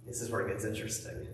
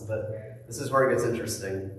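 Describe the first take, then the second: First: Whispered, fast, like a secret; teasing whisper. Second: Said in the usual way. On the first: Acted. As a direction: lean in and whisper the hook. Teaser line, then repeated aloud.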